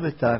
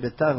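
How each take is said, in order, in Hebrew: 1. הוא נאמר כמו שמועדון הכדורגל אומר אותו. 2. הוא נאמר כמו שהעיר העתיקה נקראה. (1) "לא ביתר" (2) "זה ביתר"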